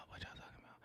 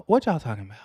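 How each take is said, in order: First: Hushed, whispered question. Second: Said in the usual way. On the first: Real, not acted. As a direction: whisper it as if to yourself. Repeats the question under breath.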